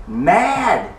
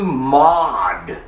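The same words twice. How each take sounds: First: Said in the usual way. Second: MAD drawn out with a British broad A; British accent. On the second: Acted. Festus tells Paul he's mad, in a British accent. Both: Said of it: "didn't say it in a British accent".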